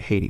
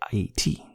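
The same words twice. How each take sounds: First: It is said with an American pronunciation. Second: It is said with a Haitian pronunciation. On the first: This is how Americans say the name. "which Americans say Haiti" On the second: This is how Haitians say the name. "but we say Haiti"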